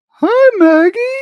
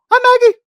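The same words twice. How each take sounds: First: It is said in a put-on dog voice. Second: It is said in his normal voice.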